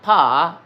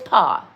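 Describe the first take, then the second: First: It is said with a Southern American drawl. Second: It is said with a clipped French vowel. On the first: The speaker calls it wrong. "it is not pa" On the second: The speaker calls it right. "it's pa"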